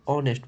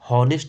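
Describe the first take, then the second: First: The word begins with a vowel sound. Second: The word begins with an h sound. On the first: The speaker calls it right. "ऑनेस्ट पढ़ा जाता है" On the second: The speaker calls it wrong. "ऑनेस्ट को हॉनेस्ट नहीं पढ़ा जाता"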